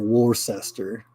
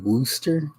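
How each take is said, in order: First: It is said the way it is spelled. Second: It is said to rhyme with rooster. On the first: The speaker calls it wrong. "it's spelled like it's like I said it" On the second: The speaker calls it right. "but it's actually Worcester, like rooster"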